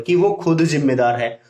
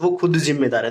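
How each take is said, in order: First: Said in the usual way. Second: खुद given extra weight in the sentence; a teacher showing emphasis on खुद; stress on खुद. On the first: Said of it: "खुद के ऊपर थोड़ा stress देना पड़ेगा". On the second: Shown as a demonstration. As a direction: press on खुद, the rest even. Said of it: "stress आएगा बोलते वक्त".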